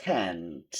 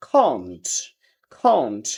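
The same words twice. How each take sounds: First: American "can't" with long AE, low; American accent. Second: British "can't" with open AH, falling low; British accent. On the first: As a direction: stretch "can't" as KAANT with American AE. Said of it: "ওরা বলে". (American উচ্চারণে) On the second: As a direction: say "can't" as KAHNT, British style. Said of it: "ব্রিটিশরা বলতেছে আ". (British উচ্চারণে) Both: Shown as a demonstration.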